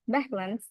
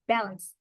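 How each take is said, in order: First: It is said with a Korean accent. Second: It is said with an American accent. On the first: "In Korean pronunciation" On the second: "In American"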